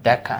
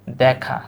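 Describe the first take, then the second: First: "দেখা" with a closed e, as dekha; wrong-way demo. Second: "দেখা" with an open æ, as dækha; correct pronunciation. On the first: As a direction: say "দেখা" as spelt, with a pure e. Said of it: "not দেখা". ("দেখা" বানান অনুযায়ী এ-ধ্বনিতে বলা) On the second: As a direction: open up the first vowel of "দেখা". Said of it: "উচ্চারণ কি?". ("দেখা" অ্যা-ধ্বনিতে দ্যাখা বলা) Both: Shown as a demonstration.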